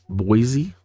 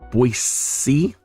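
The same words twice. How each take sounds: First: Boise is pronounced the way outsiders usually say it. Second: Boise is pronounced the way local residents say it. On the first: This is how people from elsewhere say it. "to the rest of us, it's Boise" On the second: This is how people who live there say it. "the local people pronounce it Boise"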